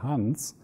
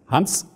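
First: The name swells and moves smoothly. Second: The name is hit hard and abruptly. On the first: The speaker calls it right. "dann ist das mehr eine Bewegung" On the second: The speaker calls it wrong. "das wäre für mich ein Akzent"

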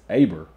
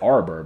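First: The name has no r sound after the first vowel. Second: The name has an r sound after the first vowel. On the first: The speaker calls it right. "but it's Aber" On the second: The speaker calls it wrong. "I said Arbor"

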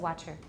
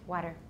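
First: The middle consonant is a crisp, released 't'. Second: The middle consonant is a quick tap, like a soft 'd'. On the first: This is the British way of saying it. The speaker calls it wrong. "We don't say water" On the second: This is the American way of saying it. The speaker calls it right. "it's useful to try and train yourself to use the tap, because that's the way we say it"

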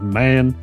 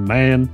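First: It is said in his natural voice. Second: It is said in his natural voice.

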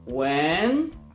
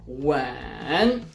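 First: The pitch rises like a question. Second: The pitch falls first, then rises. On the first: "Ton głosu idzie do góry" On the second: "Opadamy i wznosimy się"

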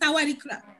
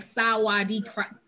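First: It is said fast. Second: It is said slowly.

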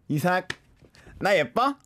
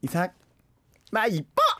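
First: It is said in a mildly cute way. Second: It is said in an extra cute way.

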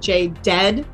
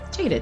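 First: The stress is on the last syllable. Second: The stress is on the first syllable. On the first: The speaker calls it wrong. "because we usually put our accent on that last syllable" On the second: The speaker calls it right. "but Jaded"

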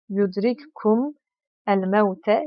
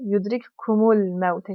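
First: The article is said as a separate word. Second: The article is joined onto the word before.

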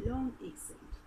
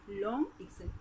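Both takes have the same delivery.

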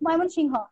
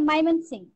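First: The name is said with a standard Bengali pronunciation. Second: The name is said with an English pronunciation. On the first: "আর বাংলা যখন বলি ময়মনসিংহ" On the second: "ইংলিশে যখন উচ্চারণ হয় তখন উচ্চারণ আসে ময়মনসিংহ"

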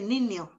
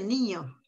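First: The word is said without a clear ñ sound. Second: The word is said with a clear ñ sound. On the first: This is how many people actually say it. "dice niño" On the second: This is the form many people do not use. "no dice niño"

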